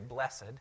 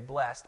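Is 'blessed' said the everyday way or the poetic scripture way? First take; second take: poetic; everyday. First: It is said the formal, poetic way. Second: It is said the ordinary, everyday way. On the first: This is the word when reading scripture aloud. "when we're reading scripture, we say blessed" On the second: This is the word in normal speech. "Normally we would say blessed"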